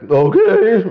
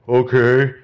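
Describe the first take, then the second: First: It is said in a higher, unsteady voice. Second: It is said in a deep, booming voice.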